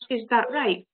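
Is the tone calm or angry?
calm. It sounds calm and accepting.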